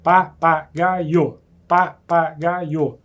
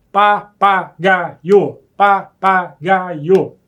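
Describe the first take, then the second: First: "Papagaio" stretched very slowly, each syllable held; drawn-out syllables. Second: "Papagaio" stretched very slowly and louder, every syllable held; drawn-out syllables. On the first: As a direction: drag "papagaio" out, beat by beat. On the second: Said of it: "três emissões de som". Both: Shown as a demonstration.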